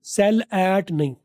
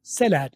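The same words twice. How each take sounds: First: Said in the usual way. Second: "sell at" run together as one word, the l carried into at; linked "sell at". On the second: Shown as a demonstration. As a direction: glide the l of "sell" straight into "at". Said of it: "सेल और एट को मैंने अलग नहीं किया". ("sell at" को एक साथ जोड़ कर, सेलेट)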